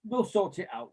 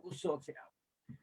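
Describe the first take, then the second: First: Said in the usual way. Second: Much softer, slower throwaway repeat; faded echo. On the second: Retold or imitated. Echoing the club's empty promise in a much softer, slower mutter. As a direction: let it die away mockingly.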